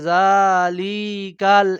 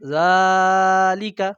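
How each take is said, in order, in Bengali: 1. শব্দটির প্রতিটি স্বরধ্বনি লম্বা করে টানা হয়। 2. শুধু প্রথম স্বরধ্বনিটি লম্বা করে টানা হয়। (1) "কেউ যদি সবগুলোতে টান দেয় জালিকাল এমন বলে তাহলে অশুদ্ধ হবে" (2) "শুদ্ধটা কি হবে? জালিকা"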